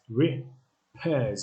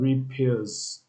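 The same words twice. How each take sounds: First: The vowel sounds like the one in 'pairs'. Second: The vowel sounds like the one in 'peers'. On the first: The speaker calls it right. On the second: The speaker calls it wrong. "not repairs. It's not peers"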